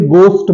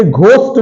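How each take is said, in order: First: "गोस्ट" with hard G, silent H; correct pronunciation. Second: "घोस्ट" with a breath of H after G; wrong pronunciation. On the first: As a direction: say "गोस्ट" with no puff after G. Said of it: "इसे गोस्ट बोलते हैं". ("गोस्ट" में एच silent रखकर) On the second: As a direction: sound the H in "घोस्ट". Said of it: "इसे घोस्ट नहीं बोलते हैं". ("घोस्ट" में एच बोलकर) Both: Shown as a demonstration.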